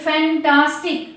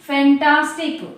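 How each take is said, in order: No difference in how they are said.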